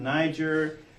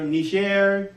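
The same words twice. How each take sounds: First: The name is said with an English pronunciation. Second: The name is said with a French pronunciation. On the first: "more Germanic English" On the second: "that's the French pronunciation"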